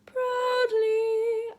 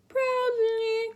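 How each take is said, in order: First: "Proudly" sung high and open; relaxed proudly. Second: "proudly" sung high with a tight jaw; tense proudly. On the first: Teacher shows the relaxed right way. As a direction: sing "Proudly" quick and loose. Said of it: "A quick glee". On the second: Teacher shows the tense wrong way. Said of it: "important to not go proudly". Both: Shown as a demonstration.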